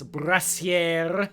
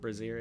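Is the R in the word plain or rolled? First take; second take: rolled; plain. First: The R is rolled. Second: The R is said plainly, not rolled. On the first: The speaker calls it right. "Gotta roll them R's" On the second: The speaker calls it wrong. "It's not brassiere"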